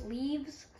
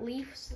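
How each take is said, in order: First: "leaves" ending in a buzzing voiced v and z; "leaves" with a clear voiced v-z ending; correct leaves. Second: "leaves" said with a hard f ending, like leafs; "leaves" ending on a sharp f sound; mispronounced leaves. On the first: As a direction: say "leaves" properly, the v and z both voiced. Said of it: "Not leaves, leaves". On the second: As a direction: say "leaves" as "leafs" with an unvoiced f at the end. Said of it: "Not leaves". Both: Shown as a demonstration.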